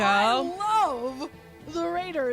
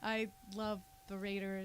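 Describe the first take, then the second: First: It is said with enthusiasm and conviction. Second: It is said half-heartedly, with a laugh.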